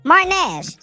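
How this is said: It is said in a put-on whiny voice.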